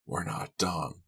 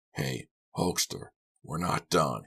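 First: Quiet, forced through teeth; through clenched teeth. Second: Mean it, no more play; threatening. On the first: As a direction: grit your teeth and say it. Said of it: "through clenched teeth". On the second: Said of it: "didn't sound playful anymore". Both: Acted.

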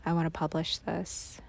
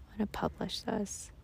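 First: Said in the usual way. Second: Quiet. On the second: Real, not acted. Repeated much softer.

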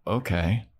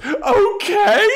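First: Said in the usual way. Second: High, loud mock-furious squeal; mad. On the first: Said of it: "And then Xander's like". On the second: Imitating Anya before she storms out, mad high shriek. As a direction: shriek it in exaggerated outrage. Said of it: "she's so mad that he's okay".

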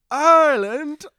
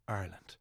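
First: "Ireland?" much higher and louder, rising sharply; delighted surprise. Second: Said in the usual way. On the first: Retold or imitated. Firm lads thrilled to hear the singers are Irish, surprised. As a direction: throw "Ireland?" up in amazed delight.

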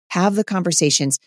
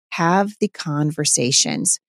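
First: Said in the usual way. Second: Slow and deliberate, each word of "Have the conversations" laid down with weight; slow emphatic urging. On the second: Real, not acted. Mom urging listeners to talk with their husbands, slow emphatic. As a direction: press the point home slowly.

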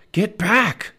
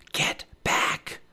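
First: High, loud urgent command; urgent warning. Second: Urgent whispered warning. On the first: Jack warns Annie off the dinosaur, urgent and loud. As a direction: order her away sharply, voice raised. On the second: Jack warns his sister near the Triceratops, whispered. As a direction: hush it to a whisper, drawn tight. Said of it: "whispered Jack". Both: A narrator's reading.

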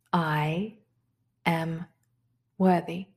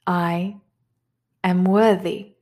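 First: Softer affirmation. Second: Said in the usual way. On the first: Shown as a demonstration. Teacher repeats the affirmation to herself, softly. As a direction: drop to a soft, inward repeat. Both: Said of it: "So the first affirmation is this".

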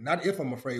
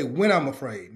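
First: "if" marked, softer aside; stress on if. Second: "When" hit as the key word; stress on when. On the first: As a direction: contrast "if" quietly against when. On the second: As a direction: lean on "When", not "if". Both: Shown as a demonstration.

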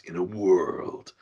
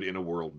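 First: Hushed movie trailer voice; whispered epic trailer narration; trailer voiceover. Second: Deep soft trailer announcer; low hushed "in a world" voiceover. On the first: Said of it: "trailer that has "in a world". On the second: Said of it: "another good "in a world" trailer". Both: Retold or imitated.

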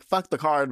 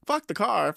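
First: Loud, careless shout of no regret; defiant outburst. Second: Same words pushed higher with a laugh; higher defiant repeat. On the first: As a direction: yell it like food matters more. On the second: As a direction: repeat it more giddy and high. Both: Retold or imitated. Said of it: "And just was like".

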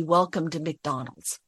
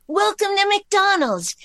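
First: Said in the usual way. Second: Very high, louder doll voice, slow and sweet; sing-song Welcome to McDonald's like a doll; Barbie doll voice. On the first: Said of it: "He says, "Just say". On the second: Acted. Reading Barbie's line on phone, high doll voice. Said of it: "I just read for Barbie's voice".

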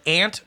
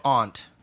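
First: "aunt" said like "ant"; aunt with short a. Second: "aunt" said like "ahnt"; aunt with broad ah. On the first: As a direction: say "aunt" with the flat a of "cat". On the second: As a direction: say "aunt" with the open "ah" of "father". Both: Shown as a demonstration. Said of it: "Do you say aunt or aunt".

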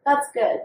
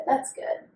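First: Said in the usual way. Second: A soft private afterthought; whispered repeat. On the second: Real, not acted. To her cohost, repeating the praise in a near whisper. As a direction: say it again as a whisper.

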